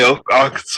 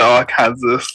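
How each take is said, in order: First: The ending is not said like Kansas. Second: The ending is said like Kansas, as spelled. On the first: "I never say Arkansas" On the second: "I always call it Arkansas"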